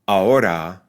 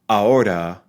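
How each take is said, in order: The two takes are said the same way.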